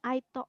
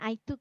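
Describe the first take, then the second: First: Took is split into two syllables with doubled o. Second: Took is said as one short syllable. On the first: The speaker calls it wrong. "o-nya dua gitu, cemooh" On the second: The speaker calls it right. "Harusnya I took ya dibacanya"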